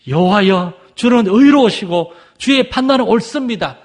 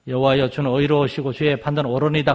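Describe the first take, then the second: First: It is read with exclamation and awe. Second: It is read plainly without exclamation. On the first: The reader feels deep reverence. "막 이렇게 감탄하듯이" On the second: The reader is only reading the words. "그냥"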